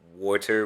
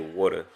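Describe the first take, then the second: First: It is said in a standard American accent. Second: It is said in a New Jersey accent.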